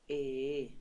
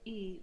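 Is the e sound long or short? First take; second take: long; short. First: The e sound is drawn out. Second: The e sound is short. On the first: The speaker calls it right. "We prolong the sound e a little bit" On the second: The speaker calls it wrong. "we don't say e"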